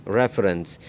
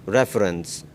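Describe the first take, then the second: The two takes are said the same way.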